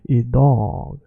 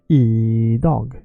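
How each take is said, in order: First: The second syllable is stretched longer. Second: The first syllable is stretched longer. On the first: The speaker calls it right. "you say e dog. So the first one is quick" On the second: The speaker calls it wrong. "You never say"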